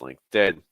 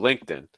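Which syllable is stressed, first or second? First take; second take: second; first. First: The stress is on the second syllable. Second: The stress is on the first syllable. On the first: The speaker calls it right. "The second syllable on LinkedIn" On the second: The speaker calls it wrong. "you're stressing linked"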